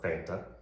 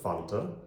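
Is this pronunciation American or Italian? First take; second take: American; Italian. First: It is said the American way. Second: It is said the Italian way.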